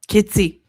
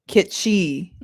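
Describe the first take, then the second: First: The middle consonant is a plain s sound. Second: The middle consonant is a sh sound. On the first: The speaker calls it wrong. "Am I wrong?" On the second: The speaker calls it right. "Like that? That's how you say it? Kit she?"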